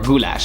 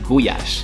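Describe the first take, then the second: First: The word has an L sound in the middle. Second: The word has a Y sound in the middle. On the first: This is the usual foreign pronunciation. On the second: This is how locals pronounce it.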